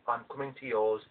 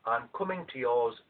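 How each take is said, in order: Both takes have the same delivery.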